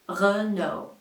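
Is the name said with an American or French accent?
French. It is said with a French accent. "This one is a French manufacturer, and they say"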